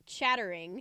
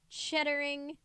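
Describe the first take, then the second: First: "chattering" with crisp t; "chattering" said clearly with a sharp t; careful correction. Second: "chattering" slurred to "cheddering"; "chattering" with t voiced to d; mispronounced. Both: Shown as a demonstration. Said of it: "It sounded like I said cheddering".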